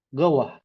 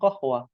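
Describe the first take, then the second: First: It starts with g and is clipped and fast. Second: It starts with a deep q sound, said fully. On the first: "orang Sudan itu bacanya disingkat cepat" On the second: "orang Yaman bilangnya bukan qahwah"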